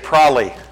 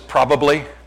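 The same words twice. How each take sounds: First: The word is rushed with a syllable dropped. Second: The word is said with all three syllables. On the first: The speaker calls it wrong. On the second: The speaker calls it right.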